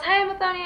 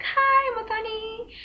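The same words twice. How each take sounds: First: High sing-song "Hi, Muthoni"; over-friendly driver. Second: High, slow, sing-song "Hi, Muthoni"; over-friendly driver. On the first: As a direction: mimic the familiar high greeting. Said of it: "So he calls". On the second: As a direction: mimic his overly familiar high greeting. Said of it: "It was that high of". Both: Retold or imitated.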